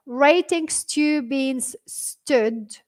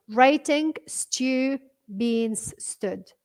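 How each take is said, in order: First: Puzzled read-out. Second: Very slow, evenly spaced words; own way of reading. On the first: Retold or imitated. Teacher reads out a viewer's puzzling words, slowly. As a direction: read out the odd words slowly, each one apart. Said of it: "ليش تقرأ هكذا". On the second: Shown as a demonstration. Teacher shows viewer how she reads it, word by word. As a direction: read it word by word, leaving gaps between them. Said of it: "بس أنا بقراها هيك".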